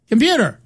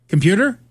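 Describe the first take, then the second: First: "Computer?" higher, dropping sharply at the end; insistent computer command. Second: "Computer?" with a rising, questioning end; tentative computer command. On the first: Presenter retries the unresponsive computer, insistent call. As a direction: insist on "Computer?" with a steep fall. Retold failing demo, repeated command. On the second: Presenter tries the unresponsive computer, tentative call. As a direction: try "Computer?" as a hopeful question. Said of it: "they would say". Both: Retold or imitated.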